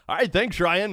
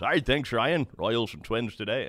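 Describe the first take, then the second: First: High, louder mock announcer sign-on; Denny Matthews catchphrase. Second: A hint of the announcer's game open; lightly voiced play-by-play intro; Denny Matthews opening. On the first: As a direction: toss it off like the booth announcer, laughing. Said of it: "I so badly wanted to say". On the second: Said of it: "that's how he starts every game".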